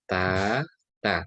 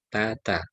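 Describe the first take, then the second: First: "ta, ta" as two separate letters with a break; "ta, ta" split letter by letter; letters read separately. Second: "tata" as one joined word, no break; "tata" flowing as a single word; joined reading. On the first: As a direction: say "ta" then "ta", apart. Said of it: "Kalau terpisah". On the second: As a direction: run "tata" straight together. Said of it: "Kalau ini langsung". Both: Shown as a demonstration.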